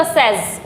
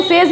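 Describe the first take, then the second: First: "सेज" as sez, short open e, lower; "सेज" short-vowelled and falling low; correct pronunciation. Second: "सेज" as sayz, long ay; "सेज" with the long vowel of "say"; common mispronunciation. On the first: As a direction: model "सेज" rhyming with "fez". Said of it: "सेज नहीं होता". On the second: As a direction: say "सेज" like say plus z. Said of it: "सेज ही बोलते हैं". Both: Shown as a demonstration.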